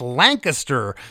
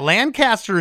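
First: It is pronounced the local Pennsylvania way. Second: It is pronounced the California way. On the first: This names the town in Pennsylvania. The speaker calls it right. "but it's Lancaster" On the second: This names the town in California. The speaker calls it wrong. "Lancaster is in California"

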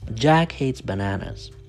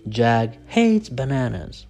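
First: The stress falls on Jack and bananas. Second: The stress falls on the verb hates. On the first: The speaker calls it right. "No, Jack hates bananas" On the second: The speaker calls it wrong. "You don't say Jack hates bananas"

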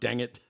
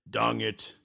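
First: It is said in the speaker's ordinary accent. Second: It is said in a put-on Russian accent.

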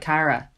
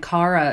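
First: The name is said a non-Irish way. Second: The name is said the Irish way. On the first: This is not how the name is said locally. The speaker calls it wrong. "We wouldn't really say like Cara" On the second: This is how the name is said locally. The speaker calls it right. "we kind of pronounce it like Cara as well"

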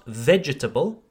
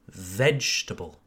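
First: The word is said with four syllables. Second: The word is said with three syllables. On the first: The speaker calls it wrong. "So it's not vegetable" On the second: The speaker calls it right. "Forget the second E"

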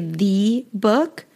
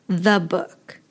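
First: The vowel in 'the' is full, not reduced. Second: The vowel in 'the' is a reduced schwa. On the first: The speaker calls it wrong. "We don't say" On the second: The speaker calls it right. "we pronounce the vowel as the schwa sound"

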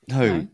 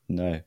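First: The word is said in a stern, scolding voice. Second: The word is said in a plain, casual voice.

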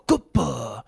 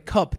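First: It is said in a Japanese-style accent. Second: It is said in a plain English accent. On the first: Locals will understand it. The speaker calls it right. "say the words in English with a Japanese accent" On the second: Locals will not understand it. The speaker calls it wrong. "if you say cup, they're gonna be like, what the fuck are you talking about?"

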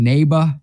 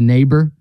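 First: It is said in an imitated foreign accent. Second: It is said in an ordinary native accent. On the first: This imitates how a celebrity said it in an ad. "He kept saying neighbor" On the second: This is the usual way to say it. "instead of neighbor"

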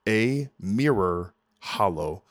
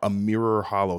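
First: The name is said slowly, each word kept apart. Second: The name is said quickly, words running together. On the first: The speaker calls it right. "So don't say it too quick" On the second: The speaker calls it wrong. "sometimes I say that quick"

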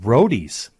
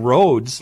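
First: The name is said as two syllables. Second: The name is said as one syllable. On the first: The speaker calls it right. "the way it's supposed to sound" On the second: The speaker calls it wrong. "I've been pronouncing the bar in Long Prairie wrong. I've been saying roads"

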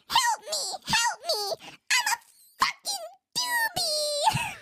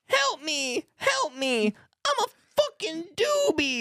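First: It is said in a high-pitched voice. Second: It is said in a normal voice.

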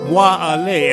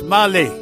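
First: Both words are said fully and separately. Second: The words run together fast into one. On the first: "You say me go" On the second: "when you say it fast, it's"

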